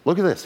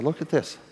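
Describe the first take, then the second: First: The pastor's happy exclamation, lightly acted; excited. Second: A touch of excitement, pitched up but held back; lightly voiced excited pastor, pitched up; mildly excited. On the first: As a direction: pastor showing the offering, mock-excited, higher. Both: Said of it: "He was excited".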